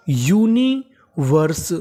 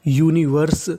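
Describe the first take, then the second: First: universe very slowly, split as uni - verse; syllable by syllable. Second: Said in the usual way. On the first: Shown as a demonstration. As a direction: draw out universe in separate parts for learners. (Universe को तोड़कर बहुत धीरे) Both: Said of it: "तो meaning बनी".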